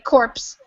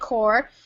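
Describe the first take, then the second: First: The P and S sounds are pronounced. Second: The P and S sounds are silent. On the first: The speaker calls it wrong. "You might hear somebody say corpse, but that's not really how you say it" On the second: The speaker calls it right. "we don't say the P or the S. We just say corps"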